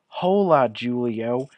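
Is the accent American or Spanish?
American. It is spoken with an exaggerated American accent. The speaker calls it wrong. "first I'm going to read it in an American accent"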